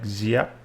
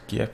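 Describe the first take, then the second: First: The name begins with a Z sound. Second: The name begins with a hard G sound. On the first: The speaker calls it right. "it's more like Ziap" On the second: The speaker calls it wrong. "not actually pronounced Gap"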